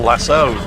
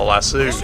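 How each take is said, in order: First: The word ends with an 'oh' vowel. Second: The word ends with an 'oo' vowel. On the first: The speaker calls it right. "referring to the lasso" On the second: The speaker calls it wrong. "not the lasso, because there's only one O in it"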